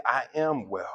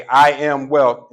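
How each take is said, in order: First: Said in the usual way. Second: Louder, slow, every word planted; with your chest. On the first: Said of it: "you just say". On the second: Shown as a demonstration. Showing the crowd how to declare I am wealth, loud and slow. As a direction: say it like you mean it. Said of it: "say it with your chest".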